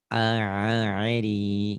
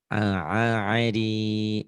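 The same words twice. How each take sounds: No difference in how they are said.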